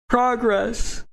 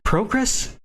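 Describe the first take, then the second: First: The first syllable sounds like 'prah'. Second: The first syllable sounds like 'pro'. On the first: It is the speaker's usual way of talking. The speaker calls it right. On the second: It sounds like a professional talking. The speaker calls it wrong.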